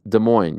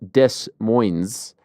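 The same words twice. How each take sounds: First: The S sounds in the name are silent. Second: The S sounds in the name are pronounced. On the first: The speaker calls it right. "You don't really pronounce the S's" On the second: The speaker calls it wrong. "it's not Des Moines"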